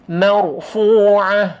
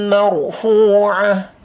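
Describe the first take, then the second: No difference in how they are said.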